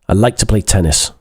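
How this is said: It is said in an abrupt, curt tone. "Doesn't sound very polite, sounds a bit abrupt"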